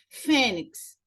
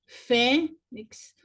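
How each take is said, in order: First: Said in the usual way. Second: "fênix" split with a pause after "fê"; syllable by syllable. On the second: Shown as a demonstration. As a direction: stress FÊ in "fênix", then a separate NIX. ("fênix" separado em duas sílabas) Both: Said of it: "paroxítona terminada em X".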